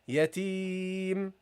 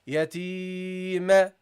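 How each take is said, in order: First: The final m ends cleanly without a bounce. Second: The final m has an added bounce after it. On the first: The speaker calls it right. "so say yatim" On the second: The speaker calls it wrong. "don't add a bounce at the end. Don't say yatim. That's a mistake"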